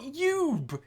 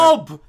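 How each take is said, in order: First: The word begins with a 'y' sound. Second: The word begins with a plain vowel sound. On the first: The speaker calls it wrong. "not Yoob" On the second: The speaker calls it right. "U B is pronounced Ub"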